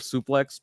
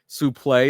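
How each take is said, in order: First: The word ends with a clear x sound. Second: The word ends in a vowel, with no x. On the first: It is the usual modern way of saying it. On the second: It is the older French-derived way of saying it.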